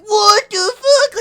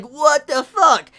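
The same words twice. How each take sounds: First: High, loud, stretched-out shocked cry; slow, drawn-out cry of shock; shocked what the fuck. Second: Louder, slowed-down shocked exclamation; a second, less shrill what the fuck; surprised what the fuck. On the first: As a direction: let it burst out in disbelief. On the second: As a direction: repeat the disbelief, slightly calmer. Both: Retold or imitated. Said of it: "my reaction was like".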